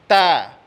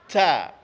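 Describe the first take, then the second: First: The t has only a light puff of breath. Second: The t has a strong puff of breath. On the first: The speaker calls it right. "Ada terasa mengalirnya, ada. Tapi dia tidak dominan" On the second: The speaker calls it wrong. "itu lebih dominan sifat mengalir nafasnya, itu salah"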